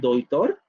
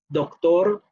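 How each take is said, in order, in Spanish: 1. Antes de la t hay una aproximante parecida a la 'y'. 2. Antes de la t hay una oclusiva sonora. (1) "el tercero sería el palatal aproximante sonoro" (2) "El primero sería el velar eh, oclusivo sonoro"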